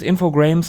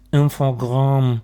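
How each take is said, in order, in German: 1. Die Endung wird wie das englische Wort 'games' ausgesprochen. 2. Die Endung wird wie der französische Laut 'gramm' ausgesprochen. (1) "Das hieß für uns Infogrames" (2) "Das heißt auf irgendwie Infogramm"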